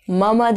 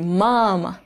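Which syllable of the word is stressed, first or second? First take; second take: second; first. First: The first syllable is not stressed and lengthened. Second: The first syllable is stressed and lengthened. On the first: The speaker calls it wrong. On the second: The speaker calls it right.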